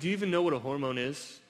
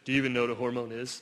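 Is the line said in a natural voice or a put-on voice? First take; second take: natural; put-on. First: It is said in the speaker's natural voice. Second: It is said in an imitated, put-on voice. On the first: The speaker calls it wrong. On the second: The speaker calls it right.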